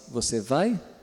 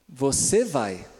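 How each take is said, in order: First: It is said with question intonation. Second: It is said with command intonation. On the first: The listener is being asked whether they go. "Uma pergunta" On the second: The listener is being told to go. "Eu dei uma ordem"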